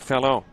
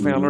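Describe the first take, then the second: First: It ends in an O vowel, Northern style. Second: It ends with an added R, Southern style.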